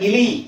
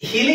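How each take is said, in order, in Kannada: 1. ಪದ ನೇರವಾಗಿ ಸ್ವರ 'i' ದಿಂದ ಶುರುವಾಗುತ್ತದೆ. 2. ಪದದ ಆರಂಭದಲ್ಲಿ ಹೆಚ್ಚುವರಿ 'h' ಶಬ್ದ ಸೇರಿಸಲಾಗಿದೆ. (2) "ಹಿಲಿ ಅಲ್ಲ"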